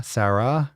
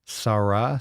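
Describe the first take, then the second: First: "Sarah" as SAIR-uh, flat a first; host's usual pronunciation. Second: "Sarah" as SAH-rah, broad ah in both; listener's own pronunciation. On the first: Host sets own version against listener's, "Sarah" as SAIR-uh. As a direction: say "Sarah" with the a of "care". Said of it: "I never called anyone Sarah". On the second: Host tries out listener's version of the name, "Sarah" as SAH-rah. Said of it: "how Papa pronounces my name". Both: Shown as a demonstration.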